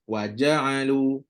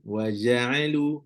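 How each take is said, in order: First: The j is stopped, with the tongue closed first. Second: The j is soft, without a full closure. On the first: The speaker calls it right. "Mesti kena rapat" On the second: The speaker calls it wrong. "Bukan bukan tak rapat lagi dah sebut dah"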